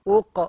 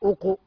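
First: The q sound is closed, with no vowel after. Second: The q sound is followed by a u vowel. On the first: The speaker calls it right. "ويرجع في وضع السكون أق" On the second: The speaker calls it wrong. "مش أق"

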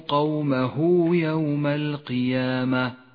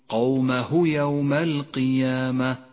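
First: The vowel after the final h is lengthened. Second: The vowel after the final h is short. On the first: The speaker calls it right. "يقرأ هكذا" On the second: The speaker calls it wrong. "وإياك أن تقول قومه يوم القيامة، فهو خطأ شائع"

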